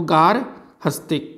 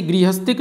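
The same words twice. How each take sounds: First: गारहस्तिक, slow and syllable by syllable with a long "gaar"; correct pronunciation. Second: Plain गृहस्थिक, said as the mistake students make; गृहस्थिक, starting with the short "gri" sound; wrong form. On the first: Teacher spelling out the right form for students, slowly. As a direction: stretch out गारहस्तिक, opening with "gaar". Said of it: "शब्द होता है गारहस्तिक". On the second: Teacher naming the common wrong form, said plainly. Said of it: "गृहस्थिक नहीं होता". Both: Shown as a demonstration.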